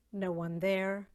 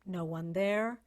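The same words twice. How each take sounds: The two takes are said the same way.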